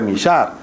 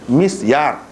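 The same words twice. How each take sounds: First: The s and y blend into an 'sh' sound. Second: The s and y are pronounced separately. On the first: The speaker calls it wrong. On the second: The speaker calls it right.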